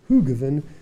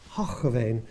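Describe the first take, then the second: First: The name is said with an Australian English pronunciation. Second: The name is said with an attempted Dutch pronunciation. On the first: This is how Australians usually say it. The speaker calls it wrong. "us Australians would always say Hoogeveen" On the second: This is how locals say it. The speaker calls it right. "I've been told about a million times that it's Hoogeveen"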